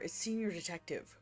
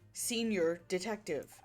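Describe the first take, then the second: First: It is said at normal speed. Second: It is said slowly.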